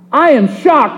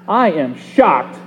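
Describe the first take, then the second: First: It is said in a pleased, amazed tone. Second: It is said in a disapproving, indignant tone. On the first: The surprise is at something good. "whether it's a good thing" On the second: The surprise is at something bad. "whether it's a bad thing"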